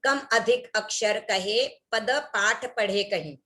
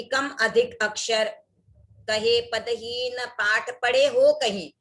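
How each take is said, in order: First: Slow careful recitation of "कम अधिक अक्षर कहे पद पाठ पढ़े कहीं" with "हीन" left out; slow, deliberate misreading of the verse; dropped syllable demo. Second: Slow recitation with an extra "हो" slipped into "पढ़े हो कहीं"; deliberate slow misreading with an added "हो"; added syllable demo. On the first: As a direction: read the line slowly, skipping "हीन". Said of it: "अगर इस तरह से बोल दे". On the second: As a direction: read the verse slowly, inserting "हो". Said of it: "ऐसे बोल दिया". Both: Shown as a demonstration.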